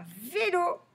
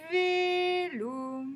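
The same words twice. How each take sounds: First: Said in the usual way. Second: Vélo stretched high, both vowels held; drawn-out syllables. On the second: Shown as a demonstration. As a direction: sing out Vélo as two long syllables. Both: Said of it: "on va chercher tous les mots".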